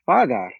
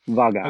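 First: The name begins with an f sound. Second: The name begins with a v sound. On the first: This is how the source language would say it. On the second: This is how High Valyrian says it. "they still don't have F ... it's still just pronounced Vagar"

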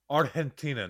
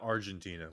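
First: It is pronounced the local Spanish way. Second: It is pronounced the usual English way. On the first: The speaker calls it right. "It's Argentina" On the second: The speaker calls it wrong. "not Argentina"

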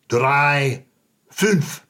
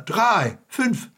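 First: It is said with a heavy, exaggerated German sound. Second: It is said with a lighter, less exaggerated sound.

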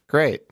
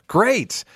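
First: It is said flatly, sounding ungrateful. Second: It is said excitedly, with enthusiasm.

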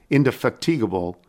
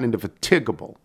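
First: The stress falls on the syllable fat. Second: The stress falls on the syllable ti. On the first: The speaker calls it right. "when I learned it was pronounced indefatigable" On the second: The speaker calls it wrong. "not indefatigable"

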